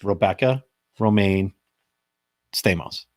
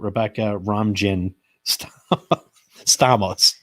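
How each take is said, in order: First: The middle name sounds like 'Romaine'. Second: The middle name sounds like 'Ramjin'. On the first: The speaker calls it right. "mostly everybody knows her name" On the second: The speaker calls it wrong. "did he butcher that name"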